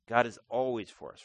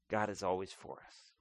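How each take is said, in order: First: Said in the usual way. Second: Quieter and lower, almost to yourself; soft first statement. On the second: Shown as a demonstration. Preacher reassuring his congregation, said softly and low. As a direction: let the truth settle gently.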